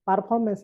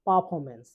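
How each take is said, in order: First: পারফরম্যান্স with r before the f; R pronounced. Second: পারফরম্যান্স with no r's; silent R. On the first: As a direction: sound the r in পারফরম্যান্স. (র উচ্চারণ করে পারফরম্যান্স) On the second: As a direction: say পারফরম্যান্স as "paa-fomance". (র বাদ দিয়ে পারফরম্যান্স) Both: Shown as a demonstration. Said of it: "আর এর উচ্চারণ হবে না".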